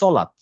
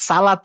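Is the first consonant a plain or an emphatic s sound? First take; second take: emphatic; plain. First: It begins with a heavy, emphatic s sound. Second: It begins with a plain, light s sound. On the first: The speaker calls it right. "উচ্চারণ করতে হবে সলাত।" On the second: The speaker calls it wrong. "সালাত বললে এইটা সিন উচ্চারণ হবে।"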